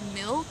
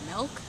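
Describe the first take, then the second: First: The vowel is the 'ih' sound, as spelled. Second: The vowel is an 'eh' sound, like 'melk'. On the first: This is how the friends say it. "it's M I L K, so they're like milk" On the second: This is how the speaker personally says it. "I say M E L K like milk"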